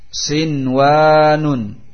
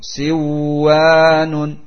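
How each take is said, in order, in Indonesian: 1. Bunyi n dibaca jelas sebelum w. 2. Bunyi n melebur ke dalam w yang mengikutinya. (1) "wajib untuk dibaca idhar nunnya" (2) "tidak boleh dibaca idgham"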